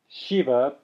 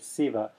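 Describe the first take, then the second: First: The word begins with an sh sound. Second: The word begins with an s sound. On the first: The speaker calls it right. "you might hear Shiva sound more like Siva" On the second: The speaker calls it wrong. "they might say Siva"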